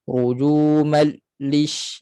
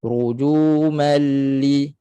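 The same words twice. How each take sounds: First: RUJUMAL LISH slow, voice cut after the L; broken-off lam. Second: RUJUMAL LI slow, L running unbroken into LI; flowing lam. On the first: Teacher shows the fault, lam cut off. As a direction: stop the sound between rujumal and lish. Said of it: "itu putus suara pada lam". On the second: Teacher corrects it, flowing lam. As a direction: keep sound flowing through the doubled L of rujumal li. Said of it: "Suara mengalir". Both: Shown as a demonstration.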